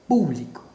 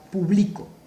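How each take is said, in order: First: The stress is on the first syllable. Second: The stress is on the middle syllable. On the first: "mayor fuerza de voz en pu" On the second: "tiene la mayor fuerza de voz aquí, en la penúltima sílaba"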